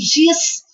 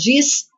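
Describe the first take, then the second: First: The word ends in a soft hushing sh sound. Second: The word ends in a strong buzzing z sound. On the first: The speaker is from the city of Rio. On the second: The speaker is from the interior of the state.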